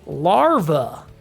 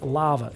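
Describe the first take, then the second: First: It is said with an American R sound. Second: It is said with no R sound, Australian style. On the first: "we can go Super American there" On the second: "You guys with your pronouncing R's, it's lava"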